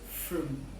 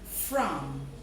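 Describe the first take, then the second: First: The word is reduced, with its vowel weakened. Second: The word is said fully with its clear vowel.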